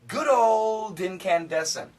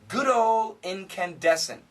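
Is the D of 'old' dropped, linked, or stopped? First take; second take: linked; dropped. First: The D runs smoothly into the next word. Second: The D sound is left out entirely. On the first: "we can connect the D" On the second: "if we say this fast, there's no D"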